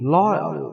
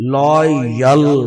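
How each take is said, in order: First: The 'y' sound is pronounced only lightly. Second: The 'y' sound is pronounced fully. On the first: The speaker calls it right. "ये हल्का सा वाई पढ़ा जाएगा, full नहीं पढ़ा जाएगा" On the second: The speaker calls it wrong. "अब देखो लॉयल नहीं"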